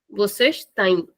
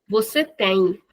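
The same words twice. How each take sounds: First: Têm with a closed, shortened nasal vowel; closed short vowel. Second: Said in the usual way. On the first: Shown as a demonstration. Teacher contrasting vocês with você, closed vowel in têm. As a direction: close the mouth more on têm. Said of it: "shortening the sound of the vowel". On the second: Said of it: "it's the normal sound".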